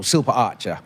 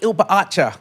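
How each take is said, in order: First: The name begins with a clear s sound. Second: The name begins without any s sound. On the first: "my last name" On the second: "they would call me, Oi, ... Like like that"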